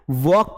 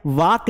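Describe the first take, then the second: First: वॉक with rounded "aw" vowel; correct vowel. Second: वॉक said as "vaak" with open aa; wrong vowel. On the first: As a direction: say वॉक as "vawk". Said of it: "वॉक पढ़ना है". (वॉक में गोल "ऑ" की आवाज़) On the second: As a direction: misread वॉक to rhyme with "dark" minus the r. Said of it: "वॉक नहीं पढ़ना है". (वॉक को गलत "वाक" पढ़ना) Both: Shown as a demonstration.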